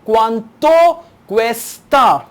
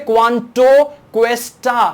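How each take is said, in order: First: The t in cuesta sounds soft, like th. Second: The t in cuesta is a plain hard t. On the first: The speaker calls it right. "it's the th, th, th, not t" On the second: The speaker calls it wrong. "Don't say quanto cuesta"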